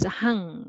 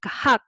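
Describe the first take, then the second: First: The syllable ends with an ng sound. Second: The syllable ends with a k sound. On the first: The speaker calls it right. "but it is hang" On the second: The speaker calls it wrong. "it doesn't sound like 학"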